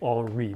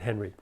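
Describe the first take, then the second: First: The name is said the French way. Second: The name is said the English way. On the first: This is how the spelling suggests it. The speaker calls it wrong. "It looks like Henri" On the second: This is how its owner said it. The speaker calls it right. "he pronounced it Henry"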